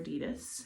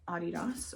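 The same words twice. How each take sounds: First: It is said the American way. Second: It is said in a non-American way.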